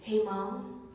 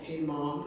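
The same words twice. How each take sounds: First: A higher, childlike voice says it. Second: A deeper, grown-up voice says it.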